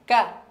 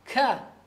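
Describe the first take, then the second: First: The k is light and easy, with little breath. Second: The k is forced, with a strong puff of breath. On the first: The speaker calls it right. "kana tipis, kana ka mudah ya" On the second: The speaker calls it wrong. "jangan di uh, dibuat-buat seperti ka"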